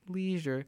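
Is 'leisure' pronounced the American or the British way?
American. The word is said with an American pronunciation. "rather than like leisure"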